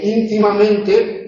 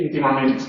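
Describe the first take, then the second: First: Íntimamente slowly, stressed on ÍN and on MEN; two stresses. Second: Íntimamente ending in -ment, final e dropped; clipped final vowel. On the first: Shown as a demonstration. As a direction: give íntimamente two high, clear beats, ÍN-ti-ma-MEN-te. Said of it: "tiene dos acentos". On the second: Real, not acted. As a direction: say íntimamente without its last e. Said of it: "me ha salido en español del siglo trece".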